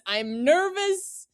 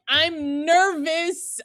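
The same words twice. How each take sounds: First: Slower, softer repeat of "nervous"; quieter mock nervous. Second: Mock nervous. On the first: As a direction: mutter it again, anxious. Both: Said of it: "I immediately was like".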